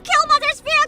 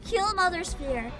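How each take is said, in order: First: It is shouted loudly and dramatically. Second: It is read calmly at normal volume.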